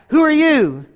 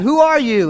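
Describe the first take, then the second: First: High echo thrown back; cave echo. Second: Higher-pitched call into a cave; mock yell. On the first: Acted. Cave repeating the boy's question, high echo. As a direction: mimic an echo in a high call. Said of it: "And it came back". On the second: Boy questioning the unseen voice, mock yell. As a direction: call out a challenge, lightly yelled. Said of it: "And then he yelled on".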